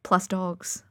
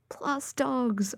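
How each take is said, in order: First: Said in the usual way. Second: "plus dogs" higher and softer, savoured; delighted repeat. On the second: Real, not acted. Dog lover repeating her favourite reason to listeners, delighted. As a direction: repeat "plus dogs" as a fond, dreamy sigh.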